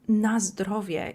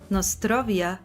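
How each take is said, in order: First: It begins with 'naz' and ends in 'drowie'. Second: It begins with 'nos' and ends in 'trovia'. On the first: The speaker calls it right. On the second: The speaker calls it wrong.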